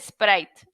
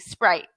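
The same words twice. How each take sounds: First: It is said with a Spanish pronunciation. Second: It is said with an English pronunciation. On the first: The speaker calls it wrong. "But in Spanish, I go" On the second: The speaker calls it right. "So in English, I say Sprite"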